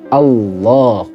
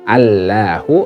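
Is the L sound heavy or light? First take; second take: heavy; light. First: The L sound is thick and heavy. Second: The L sound is thin and light. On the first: The speaker calls it right. "dibaca tebal" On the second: The speaker calls it wrong. "Jangan dibaca ... kalau itu dibaca tipis jadinya"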